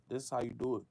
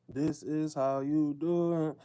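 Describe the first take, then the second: First: Said in the usual way. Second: "do" leaned on, whole line slow and deliberate; slow punch on "do" like a motto; slow emphatic. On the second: Shown as a demonstration. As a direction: drive it home slowly, hitting "do".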